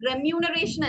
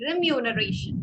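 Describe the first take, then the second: First: "Remuneration" with an open "reh" start; wrong pronunciation. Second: "remuneration" slowly, starting "ri"; correct pronunciation. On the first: Teacher showing what not to say, mispronounced. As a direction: say "Remuneration" beginning reh-MYOO. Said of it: "Remuneration അല്ല". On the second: Teacher correcting a student, carefully pronounced. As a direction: say "remuneration" as ri-myoo-nuh-RAY-shun, drawn out. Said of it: "it's remuneration". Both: Shown as a demonstration.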